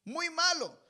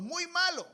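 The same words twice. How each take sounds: First: Muy malo repeated high and stressed; emphatic repeat. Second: Muy malo, high and stressed; emphatic. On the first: (repetición enfática de malo) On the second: (énfasis en malo, agudo) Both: Real, not acted. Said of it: "Hay padres que no disciplinan".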